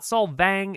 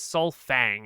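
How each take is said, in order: First: The second syllable starts with a v sound. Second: The second syllable starts with an f sound. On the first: This is the outsiders' foreign pronunciation. The speaker calls it wrong. "it is not Solvang" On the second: This is the locals' own name for the town. The speaker calls it right. "it is Solfang. It is like Sunfang"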